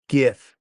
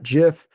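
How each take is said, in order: First: It begins with a hard G sound. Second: It begins with a soft J sound. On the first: The speaker calls it right. "graphic GIF" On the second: The speaker calls it wrong. "not GIF. GIF is a peanut butter"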